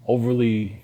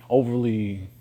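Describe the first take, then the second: No difference in how they are said.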